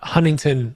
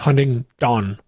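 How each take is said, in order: First: The last syllable is said as 'ton'. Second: The last syllable is said as 'don'. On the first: The speaker calls it wrong. "it's not Huntington like the beach" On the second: The speaker calls it right. "It's Huntingdon, D O N"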